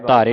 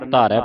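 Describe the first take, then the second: First: The word ends in a closed 'e' vowel. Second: The word ends in an open 'ai' vowel. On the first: The speaker calls it wrong. "ਧਾਰੇ ਨਹੀਂ ਪੜ੍ਹਨਾ" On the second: The speaker calls it right. "ਧਾਰੈ ਪੜ੍ਹਨਾ"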